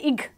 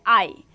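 First: It is sounded with a hard g at the end. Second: It is sounded as a plain vowel with no g. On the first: The speaker calls it wrong. "We will not say ig" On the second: The speaker calls it right. "we will say I"

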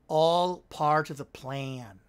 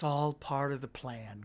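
First: It is said in a put-on villain character voice. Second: It is said in the speaker's natural voice.

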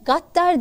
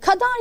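First: The word begins with a g sound. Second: The word begins with a plain k sound. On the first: This is how the Tokat dialect says it. "gaddar deriz" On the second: This is the standard written form. "kadar diye yazarız"

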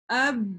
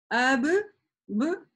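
First: The b sound is released once. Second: The b sound is released twice. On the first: The speaker calls it right. "мы произносим аб" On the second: The speaker calls it wrong. "мы так не произносим"

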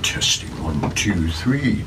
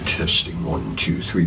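First: The voice sounds full and rich. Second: The voice sounds dry and thin. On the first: The speaker calls it right. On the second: The speaker calls it wrong. "It sounds much drier. It doesn't sound as good"

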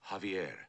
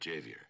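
First: The name begins with an H-like sound. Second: The name begins with an English J sound. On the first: The speaker calls it right. "The J is silent. You pronounce it like a ha" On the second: The speaker calls it wrong. "not Javier"

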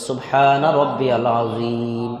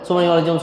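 First: Every syllable of the phrase is said fully. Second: The phrase is rushed, with the middle syllables dropped. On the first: The speaker calls it right. "রুকুতে আমরা কি পড়ি সবাই বলেন তো" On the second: The speaker calls it wrong. "কিন্তু আমরা তো এভাবে বলি না"

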